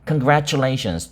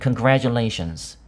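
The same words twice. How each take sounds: First: The word is pronounced the way older speakers say it. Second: The word is pronounced the way younger speakers say it. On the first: This is how older people usually say it. "나이가 상대적으로 좀 있으신 분들은 congratulations 주로 발음을 하고" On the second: This is how younger people usually say it. "상대적으로 좀 젊은 분들은 congratulations 주로 발음을 합니다"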